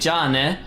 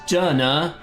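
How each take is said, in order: First: The word ends with an "eh" vowel. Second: The word ends with an "uh" vowel. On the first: The speaker calls it right. "she's clearly trying to say" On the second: The speaker calls it wrong. "like almost mispronouncing the beginning of my name, just "jana." Uh isn't even a sound in Japanese"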